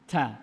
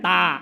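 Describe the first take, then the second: First: The t is released with a puff of air. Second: The t is released with no puff of air. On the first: The speaker calls it right. "ah tuh ada tuh lulus" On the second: The speaker calls it wrong. "ta ta nggak ada anginnya kan"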